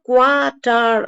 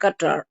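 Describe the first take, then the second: First: The word begins with a kw sound. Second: The word begins with a plain k sound. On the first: The speaker calls it wrong. "அந்த குவா சவுண்ட் இங்க வராது" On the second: The speaker calls it right. "வெறும் கத்தார் அப்படிங்கிற சவுண்டு தான் வரும்"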